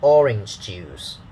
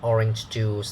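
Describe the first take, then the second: First: The stress falls on the word orange. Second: The stress falls on the word juice. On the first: The speaker calls it right. "we say orange juice. ... the focus will be the orange" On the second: The speaker calls it wrong. "not orange juice. Da da da is wrong"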